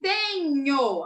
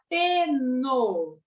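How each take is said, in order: First: "Tenho" drawn out with palatal nyo; NH sound shown. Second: "teno" slow with plain N; H left out. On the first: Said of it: "Se eu tiro". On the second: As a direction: sound out "teno", ending in hard no. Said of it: "fica teno". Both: Shown as a demonstration.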